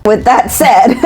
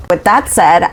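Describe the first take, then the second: First: Higher-pitched, breaking into laughter; laughing. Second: Said in the usual way. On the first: Real, not acted. Host signing off to listeners, laughing through it. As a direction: start the sign-off while cracking up. Cracks up starting the sign-off.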